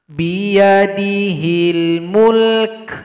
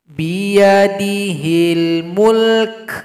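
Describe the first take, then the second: No difference in how they are said.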